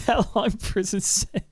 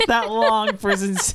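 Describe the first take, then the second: First: Laughing. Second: Words through a chuckle; laughing. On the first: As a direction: let the laugh spill over. Restarts after laughing. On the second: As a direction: laugh while saying it. Laughing at his own joke. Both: Real, not acted.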